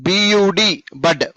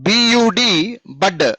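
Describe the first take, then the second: No difference in how they are said.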